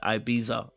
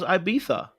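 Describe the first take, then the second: First: The middle consonant is a z sound. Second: The middle consonant is not a z sound. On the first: Someone else says it this way. "with a Z like Ibiza" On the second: The speaker always thought it was said this way. "I thought it was Ibiza"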